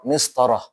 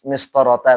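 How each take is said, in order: First: The word ends with the ending pronounced as 'h'. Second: The word ends with the ending pronounced as 'ta'. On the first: The speaker calls it right. "Harusnya apa?" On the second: The speaker calls it wrong. "nggak boleh dibaca mis mistorota nggak boleh"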